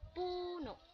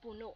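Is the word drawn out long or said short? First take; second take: long; short. First: The word is drawn out long. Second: The word is said short.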